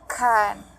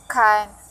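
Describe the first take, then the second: First: The vowel is full and clear. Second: The same.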